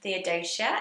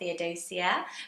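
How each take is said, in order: First: The end of the name has a 'sh' sound. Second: The end of the name has no 'sh' sound. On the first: The speaker calls it right. "it's the sh at the end" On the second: The speaker calls it wrong. "not Theodosia"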